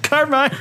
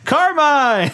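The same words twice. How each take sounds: First: The name is called softly and half-heartedly. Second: The name is shouted loudly and desperately.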